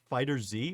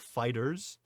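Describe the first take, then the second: First: The word ends in a separate 'zee' letter sound. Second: The word ends in a plain s sound. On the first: "I know everybody pronounces it Fighter Z" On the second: "it's supposed to be pronounced Dragon Ball Fighters"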